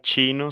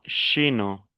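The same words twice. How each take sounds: First: It begins with a 'ch' sound. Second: It begins with an 'sh' sound. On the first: "Yo no dijera chino" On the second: "sino chino"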